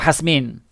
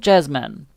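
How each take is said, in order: First: The name begins with an H sound. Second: The name begins with a J sound. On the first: This is the name's original, non-English form. "Because I know it's like Hasmin" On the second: This is the English form of the name. "I'll say Jasmine because it's the English version of your name"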